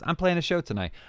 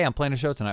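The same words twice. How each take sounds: First: It is said in a weird put-on voice. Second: It is said in a normal speaking voice.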